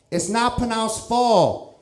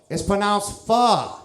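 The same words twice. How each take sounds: First: "pho" rhyming with "foe", high mock Vietnamese accent; high, slow correction, "pho" with a long O, put-on Vietnamese accent; wrong "pho" in mock Vietnamese accent. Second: "pho" said as "fuh", high mock Vietnamese accent; high, slow correction, "pho" with an open "uh", put-on Vietnamese accent; corrected "pho" in mock Vietnamese accent. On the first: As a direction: slowly mimic a Vietnamese speaker saying "pho" as "foe". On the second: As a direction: slowly mimic a Vietnamese speaker saying "pho" as "fuh".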